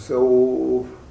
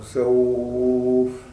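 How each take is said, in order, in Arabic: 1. يُمَدّ حرف اللين مدّة متوسطة. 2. يُمَدّ حرف اللين مدّة طويلة.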